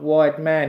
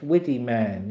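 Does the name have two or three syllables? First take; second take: two; three. First: The name is said in two syllables. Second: The name is said in three syllables. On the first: "it looks like wide man, but it's not wide man" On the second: "it's widdy man"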